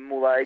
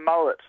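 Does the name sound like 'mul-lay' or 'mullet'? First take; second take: mul-lay; mullet. First: It is said like mul-lay, ending in lay. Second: It is said like the word mullet. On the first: This is a pronunciation teammates have been trying out. "have been trying to get the um, the Malay going" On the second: This is the name's own pronunciation. "just like a like a fish and hairstyle"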